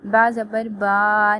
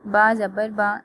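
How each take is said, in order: First: The vowel is stretched out long. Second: The syllable is read gently and smoothly. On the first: The speaker calls it wrong. "बेचना नहीं है।" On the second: The speaker calls it right. "नरमी से पढ़ना है"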